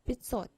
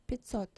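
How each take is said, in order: No difference in how they are said.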